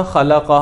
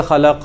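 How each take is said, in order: First: Said in the usual way. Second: خلق with the vowel stretched into a long aa; wrongly lengthened vowel. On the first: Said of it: "ایک بندے نے پڑھنا تو تھا خلق". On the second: Shown as a demonstration. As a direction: drag out the vowel in خلق as a mistake. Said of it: "تھوڑا سا مد کر دی، لمبا کر دیا". (خلق میں غلط لمبی مد)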